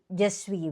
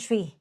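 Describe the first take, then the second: First: Both words are said fully and separately. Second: The words are run together into one short syllable. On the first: "pag sinabi nilang je suis" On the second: "minsan sinasabi lang nila yung suis"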